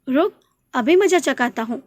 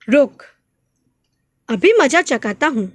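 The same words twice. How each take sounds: First: The words run on without a pause. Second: There is a pause after the first word. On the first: It does not sound like a threat. "अगर आप इस रुक पर नहीं रुकेंगे" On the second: It sounds like a threat. "यदि हमने थोड़ा रुकते हैं"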